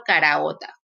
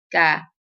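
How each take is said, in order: First: Said in the usual way. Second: Caraota broken into ca, ra, o, ta; syllable split. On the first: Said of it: "por ejemplo". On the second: Shown as a demonstration. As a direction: chop caraota into separate syllables. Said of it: "Cuando yo separo esta palabra en sílabas".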